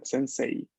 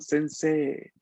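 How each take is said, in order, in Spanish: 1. La i final se pronuncia como un sonido separado. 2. La e se alarga y no se oye la i. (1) "Con la i al final" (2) "esta es una E larga, o sea que la I no se escucha"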